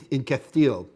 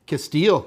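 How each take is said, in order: First: "Castile" with a th sound for the s; playful Castilian lisp. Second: Said in the usual way. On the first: Pretend. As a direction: lisp "Castile" as Cath-teel, amused. Joking Castilian lisp after plain take.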